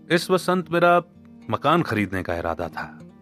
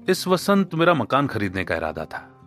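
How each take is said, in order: First: The stress is on मकान. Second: The stress is on इस.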